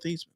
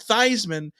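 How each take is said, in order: First: The name does not rhyme with Heisman. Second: The name rhymes with Heisman. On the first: This is the original family pronunciation. "But his no and his name is Joe Theismann" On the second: This is the changed version used for publicity. "changed his name to Theismann so it would rhyme with the Heisman"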